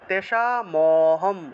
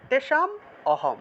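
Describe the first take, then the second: First: The m runs straight into the next word. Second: The m closes the first word before a break. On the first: "একসাথে বলতে হবে" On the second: "যদি আপনারা মটাকে ভাঙেন"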